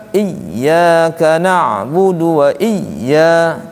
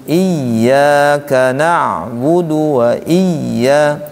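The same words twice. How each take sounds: Both takes have the same delivery.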